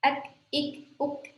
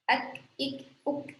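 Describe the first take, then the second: The two takes are said the same way.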